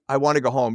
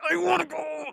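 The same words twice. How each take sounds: First: It is said in a plain, relaxed voice. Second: It is said in a strained, effortful voice.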